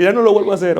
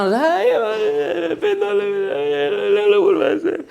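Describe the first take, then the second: First: Said in the usual way. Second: High-pitched hammed-up wailing, words blurred into sobs; mock crying. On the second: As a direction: fake a tearful, unintelligible plea. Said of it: "si tú me sigues llorando y llorando".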